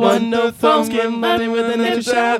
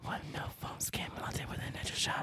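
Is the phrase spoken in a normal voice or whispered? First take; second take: normal; whispered. First: It is spoken in a normal full voice. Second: It is spoken in a whisper.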